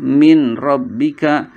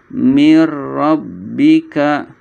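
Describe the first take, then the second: First: An n sound is heard before rabbika. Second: The n merges into a doubled r sound. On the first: The speaker calls it wrong. "nggak boleh min rabbika" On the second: The speaker calls it right. "tapi mir rabbika ... nun sukunnya melebur ke ro"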